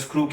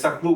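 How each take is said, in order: First: The word starts with a tight sk cluster. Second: A vowel is inserted between s and k. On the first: "स्क्रू के बदले" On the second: "सकरू बोलते हैं कश्मीरी"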